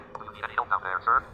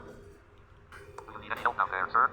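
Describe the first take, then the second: First: Said in the usual way. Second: Slow, stretched-out call down the ravine; slow drawn-out call. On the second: Acted. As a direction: drag the words out like calling from afar. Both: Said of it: "Don't yell".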